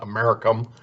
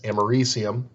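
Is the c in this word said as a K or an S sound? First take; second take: K; S. First: The c is said as a hard K sound. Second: The c is said as an S sound. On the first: The speaker calls it wrong. "rather than a hard K sound. It's not Americum" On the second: The speaker calls it right. "Notice the C has an S sound to it"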